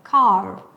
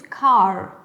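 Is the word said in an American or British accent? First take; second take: American; American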